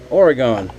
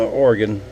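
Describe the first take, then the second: First: Oregon as OR-uh-gone, three syllables; alternative pronunciation. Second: Oregon as OR-gun, two syllables; alternative pronunciation. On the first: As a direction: end "Oregon" on a full "gone". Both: Shown as a demonstration. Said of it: "However y'all say it".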